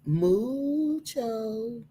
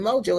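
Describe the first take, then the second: First: The first vowel sounds like 'oo'. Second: The first vowel sounds like 'oh'. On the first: The speaker calls it right. "It's Mujo" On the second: The speaker calls it wrong. "I'm calling it Mojo. It's probably not because it's a U"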